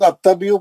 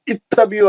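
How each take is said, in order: First: The word begins with an 'a' vowel. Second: The word begins with an 'i' vowel. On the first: The speaker calls it wrong. "जबर से पढ़ना गलत है" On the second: The speaker calls it right. "अलिफ के नीचे जेर देंगे"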